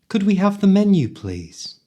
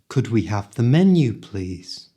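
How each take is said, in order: First: It is spoken quickly, at full speed. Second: It is spoken at a moderate speed. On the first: "at the speed native people speak" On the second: "this time a little faster"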